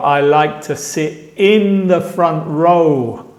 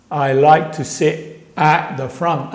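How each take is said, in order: First: "in" picked out, slow and deliberate; slow example sentence with emphasis on "in"; stress on IN. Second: "at" set apart for contrast; careful example sentence with emphasis on "at"; stress on AT. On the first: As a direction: lean on the word "in" to contrast it. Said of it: "compara este que dije antes". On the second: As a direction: lean on the word "at" as the key word. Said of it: "compara este que". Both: Shown as a demonstration.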